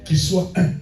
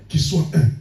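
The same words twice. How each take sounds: The two takes are said the same way.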